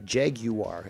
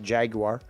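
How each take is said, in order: First: The word is said the less common, non-American way. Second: The word is said the common North American way. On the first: The speaker calls it right. "Jaguar is the proper pronunciation" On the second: The speaker calls it wrong. "most Americans and Canadians call it Jaguar, and that is actually incorrect"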